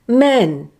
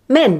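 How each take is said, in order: First: The vowel is one long, steady sound. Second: The vowel is one short, clipped sound. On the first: "use a long simple vowel sound instead, like this" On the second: "Or even shorten it like this"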